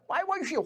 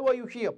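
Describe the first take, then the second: First: It is said in an angry tone. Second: It is said in a plain, neutral tone.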